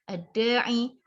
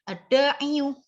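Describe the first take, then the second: First: The word ends on a bare 'i' sound. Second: The word ends with an added 'yu' sound. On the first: The speaker calls it right. "ringan sekali" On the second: The speaker calls it wrong. "agak berat"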